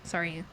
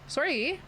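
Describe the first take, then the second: First: It has a neutral, American-sounding accent. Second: It has an exaggerated, stereotypical Canadian accent. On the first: "I say sorry like sorry" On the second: "I don't say sorry like that"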